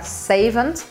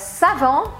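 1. O T final é pronunciado. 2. O T final é mudo.

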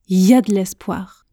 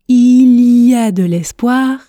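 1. Les mots sont raccourcis et enchaînés. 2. Chaque syllabe est prononcée entièrement et séparément. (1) "mais je prononce il y a de l'espoir" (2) "Je ne prononce pas il y a de l'espoir"

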